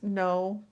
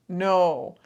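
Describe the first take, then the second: First: It is said in a normal tone. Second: It is said strongly and firmly.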